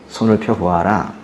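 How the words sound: It is said in a solemn, gentle tone. The speaker is kindly commanding with authority. The speaker calls it right. "매우 근엄하고 한편엔 부드러운 음성으로 말씀하셨을 거예요"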